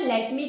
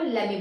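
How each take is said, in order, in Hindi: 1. दोनों शब्द पूरे और अलग-अलग बोले जाते हैं। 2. दोनों शब्द मिलकर एक छोटा शब्द बन जाते हैं। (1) "लेट मी की जगह" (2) "शॉर्ट तरीके से बोलना है"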